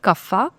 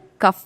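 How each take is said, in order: First: It ends with a final 'a' vowel, southern style. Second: It ends on a consonant, northern style.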